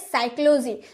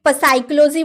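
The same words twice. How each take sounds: First: The word begins without a p sound. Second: The word begins with a p sound. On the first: The speaker calls it right. "क्योंकि पी तो चुप रहता है" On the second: The speaker calls it wrong. "क्या आपने कभी साइक्लोजी बोला है? साइक्लोजी नहीं ना"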